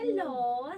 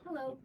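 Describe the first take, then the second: First: The words are stretched out and drawn long. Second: The words are said at normal length. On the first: "you just have to elongate your words" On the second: "instead of saying"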